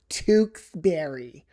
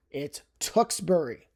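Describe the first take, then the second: First: Tewksbury said slow as TOOKS-berry; drawn-out outsider Tewksbury; wrong Tewksbury. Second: Tewksbury as TUKS-bree, short clipped vowel; quick local Tewksbury; correct Tewksbury. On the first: Mocking the common mispronunciation of Tewksbury. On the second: Setting viewers straight on Tewksbury. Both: Shown as a demonstration. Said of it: "A very common mispronunciation of this would be".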